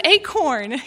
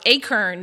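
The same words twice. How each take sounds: First: "acorn" as AY-korn, through a laugh; "acorn" with a clear O in the second syllable; standard pronunciation. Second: "acorn" as AY-kern; "acorn" rhyming its end with "fern"; East Texas pronunciation. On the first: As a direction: say "acorn" with a full "corn", amused. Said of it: "Do you know what an acorn is". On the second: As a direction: say "acorn" with second syllable "kern". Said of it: "that's an East Texas thing". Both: Shown as a demonstration.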